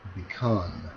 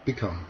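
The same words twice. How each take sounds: First: The stress is on the second syllable. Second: The stress is on the first syllable. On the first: The speaker calls it right. "뒤 음절에 강세가 있는 경우가" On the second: The speaker calls it wrong. "억양을 바꿔서 하면"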